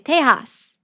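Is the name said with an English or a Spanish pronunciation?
Spanish. The name is said with a Spanish pronunciation. The speaker calls it right. "Texas is really Tejas"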